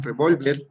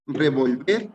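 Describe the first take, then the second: First: Revólver said with the weight on the middle syllable; stress on VÓL. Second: Revolver said with the weight on VER, rising; stress on last syllable. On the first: Teacher correcting a misread quiz option, revólver stressed on VÓL. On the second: Teacher misreading a quiz option, revolver stressed on the last syllable. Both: Shown as a demonstration. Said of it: "perdón, revólver".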